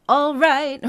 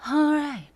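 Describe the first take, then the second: First: Loud "all right" with every word spoken clearly; articulated all right. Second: High "All right" as a short sung effect; sung, toss "All right" off like a sound effect. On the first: Coach showing the wrong spoken version. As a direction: say "all right" fully pronounced. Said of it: "It's not that". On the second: Sung, coach showing the sound-effect version. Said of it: "It's a sound effect". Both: Shown as a demonstration.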